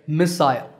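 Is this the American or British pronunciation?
British. It is said with a British pronunciation. "while the British say missile"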